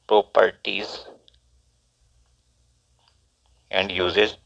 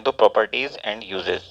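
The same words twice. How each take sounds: First: "properties" and "and uses" spaced out with long pauses; slow dictation. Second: Said in the usual way. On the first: Shown as a demonstration. Teacher dictating the heading to students, slowly with long pauses.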